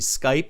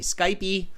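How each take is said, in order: First: The word ends without an added vowel sound. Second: The word ends with an added vowel sound. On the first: The speaker calls it right. "in American Canadian English, it's actually Skype" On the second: The speaker calls it wrong. "Some people say Skypey"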